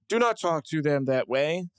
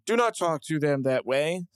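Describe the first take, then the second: First: It sounds flat and robotic, like AI. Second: It sounds flat and robotic, like AI.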